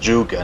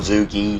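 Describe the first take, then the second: First: The word ends with a 'guh' sound. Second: The word ends with a 'gee' sound. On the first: The speaker calls it right. "It pronounced "zhuge,"" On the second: The speaker calls it wrong. "or "zugi.""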